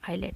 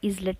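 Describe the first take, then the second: First: The s is silent. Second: The s is sounded. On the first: The speaker calls it right. "एस silent हो गया" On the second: The speaker calls it wrong. "इजलेट नहीं बोलेंगे हम"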